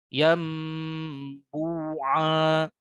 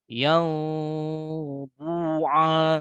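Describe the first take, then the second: First: The lips stay fully closed on the nasal. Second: The lips stay slightly open on the nasal.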